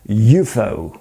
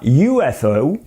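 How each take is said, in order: First: It is said as a single word. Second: Each letter is said separately.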